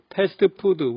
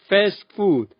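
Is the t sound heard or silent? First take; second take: heard; silent. First: The t sound is clearly pronounced. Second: The t sound is dropped entirely. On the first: The speaker calls it wrong. "한국에선" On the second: The speaker calls it right. "실제로는 ... 트 소리 하나도 안 들립니다"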